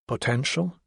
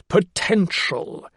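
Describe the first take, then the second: First: "Potential?" softer, with a questioning rise; querying. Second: "potential" drawn out with great emphasis; stress on "potential". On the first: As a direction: query "Potential?" quietly, lifting the end. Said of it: "he queried". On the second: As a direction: lean slowly on "potential," like a euphemism. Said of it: "put great emphasis on the last word". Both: A narrator's reading.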